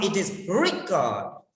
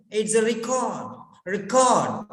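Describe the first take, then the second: First: Record said RE-cord, stress on re; primary stress on the first syllable of record; noun stress. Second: Record said re-CORD, stress on cord; secondary stress on re in record, cord strong; verb stress. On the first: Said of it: "In the noun". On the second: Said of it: "In the verb". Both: Shown as a demonstration.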